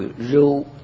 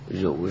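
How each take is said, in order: First: The word is said in a level tone. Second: The word is said in the third tone. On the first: "还有读平声，读肉" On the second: "肉是第三声"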